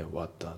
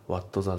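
First: WHAT THE as "wa'da"; dropped T. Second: WHAT THE as "watto za"; katakana-style WHAT with a full "to"; T fully sounded. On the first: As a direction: run WHAT into THE without the T. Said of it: "whatのTが抜きますね". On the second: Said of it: "じゃなくて". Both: Shown as a demonstration.

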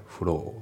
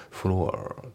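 First: "フロー" with a long o and no r; British-style floor, r dropped; silent R. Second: "フロア" with an r-coloured ending; American-style floor, r sounded; pronounced R. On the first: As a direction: finish フロー on a pure long vowel. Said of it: "このRがあまり発音". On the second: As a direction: curl the final r of フロア. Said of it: "じゃなくて". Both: Shown as a demonstration.

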